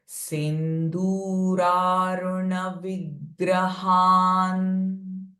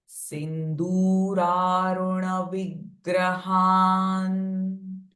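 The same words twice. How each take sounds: The two takes are said the same way.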